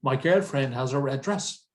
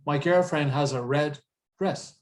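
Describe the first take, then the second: First: "red dress" joined smoothly with one shared D; "red dress" linked without a gap; linked consonants. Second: "red dress" broken by a gap at the end of the sentence; "red dress" said as two separate words; unlinked words. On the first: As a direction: run "red dress" together at the sentence end. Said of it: "we link the sounds". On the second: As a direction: pause between "red" and "dress", sounding both Ds. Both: Shown as a demonstration.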